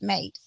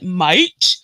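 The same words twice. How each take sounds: First: The word is said short and plainly. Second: The word is exaggerated and overpronounced. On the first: This is how locals actually say it. The speaker calls it right. "It's just like mate" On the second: A foreigner is imitating the local accent. The speaker calls it wrong. "an American doing an English accent would be like"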